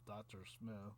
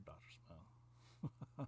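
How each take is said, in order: First: Said in the usual way. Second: Drawn-out whisper of the name. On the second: Real, not acted. Storyteller whispers the name as an inside joke. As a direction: breathe "Doctor Smith" slowly as a secret. Whispered aside about a reference.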